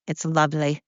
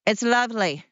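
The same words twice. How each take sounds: First: Said in the usual way. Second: Lilting delight. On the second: Pretend. Host picturing Sound of Music twirling, lilting delight.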